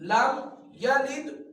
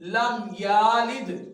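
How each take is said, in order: First: The vowel after y is kept short. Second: The vowel after y is drawn out long. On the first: The speaker calls it right. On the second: The speaker calls it wrong.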